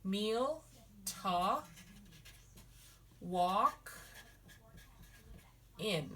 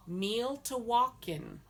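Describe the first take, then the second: First: Each word set apart with long pauses; syllable by syllable. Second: Said in the usual way. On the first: Shown as a demonstration. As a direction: break "Meal to walk in" into slow separate words. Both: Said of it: "it's a meal".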